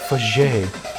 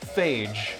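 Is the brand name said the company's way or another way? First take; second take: company's way; another way. First: The name is said the company's own way. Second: The name is said the speaker's own way. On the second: "It's called phage"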